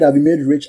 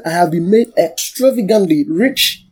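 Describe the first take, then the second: First: Said in the usual way. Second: Slow, drawn-out stress on "extravagantly"; emphatic declaration. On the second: Shown as a demonstration. Preacher stressing what the verse really said, emphatic "extravagantly". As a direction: stretch "extravagantly" out slowly, leaning into each syllable. Contrasts lesser wording with the verse.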